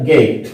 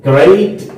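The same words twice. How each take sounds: First: "गेट" for great, r left out; r-less great, "गेट"; R dropped. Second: "ग्रेट" with the r sounded; careful "ग्रेट", r after the g; R pronounced. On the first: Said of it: "तलफ़ुज़ करें या ना करें". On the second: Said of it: "इसको दो तरीके से अदा किया जा सकता है". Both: Shown as a demonstration.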